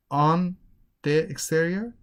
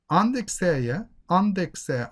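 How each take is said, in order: First: "on", pause, then "the exterior"; separate words. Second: "on the exterior" linked with no gap; "on the" joined as one word, "onde"; connected speech. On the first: Teacher showing students the wrong way, word by word. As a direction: disconnect "on" from "the exterior". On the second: Teacher showing how you connect on the, linked. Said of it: "You connect on the". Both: Shown as a demonstration.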